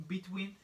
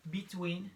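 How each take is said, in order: Both takes have the same delivery.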